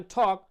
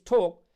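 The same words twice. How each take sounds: First: টক with an open American vowel; American pronunciation. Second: ঠোক with a rounded "oh" vowel; British pronunciation. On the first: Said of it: "American টক". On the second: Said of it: "British ঠোক". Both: Shown as a demonstration.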